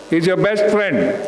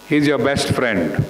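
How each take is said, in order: First: "best" hit harder, the whole line raised; stress on best. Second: Said in the usual way. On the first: Real, not acted. Trainer driving home to students that the rider is a friend, stressing "best". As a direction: lean on "best" in "He's your best friend.". Repeated for emphasis.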